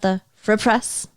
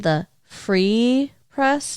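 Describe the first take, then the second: First: The word free has a different vowel. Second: The word free has an ee vowel. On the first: The speaker calls it wrong. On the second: The speaker calls it right. "What sound do two E's together make? E"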